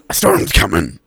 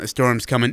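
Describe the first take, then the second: First: It is said in a put-on character voice. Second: It is said in a plain, ordinary voice. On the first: The speaker calls it right. "You have to do it in the voice" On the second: The speaker calls it wrong. "like when you said earlier"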